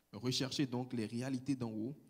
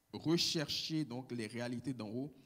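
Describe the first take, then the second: No difference in how they are said.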